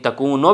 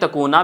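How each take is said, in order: First: The word ends in a 'u' vowel. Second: The word ends in an 'a' vowel. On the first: The particle before it is the lightened form of 'anna'. "तकूनो भी पढ़ सकते हैं" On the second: The particle before it puts the verb in the subjunctive. "तकूना भी पढ़ सकते हैं"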